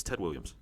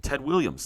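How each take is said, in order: First: Said in the usual way. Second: Excited recall. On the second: Real, not acted. Recalling a player name mid-quiz.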